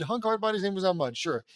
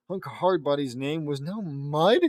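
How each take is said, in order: First: Quick run-through, falling at the end; resigned re-read. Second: Slow, questioning rise on "Mud"; baffled reading. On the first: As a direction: rattle it off and give up questioning. Re-reads it, giving in with "sure. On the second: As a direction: read it out in disbelief, ending as a question. Reader baffled by the line. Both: Real, not acted.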